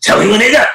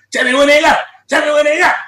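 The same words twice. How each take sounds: First: Half-shouted chant, a bit higher; hyped chant. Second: High shouted chant; mock drunk shout. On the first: Retold or imitated. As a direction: start chanting it like a drunk homie in the studio. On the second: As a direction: yell it over and over like a drunk homie. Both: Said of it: "He was like".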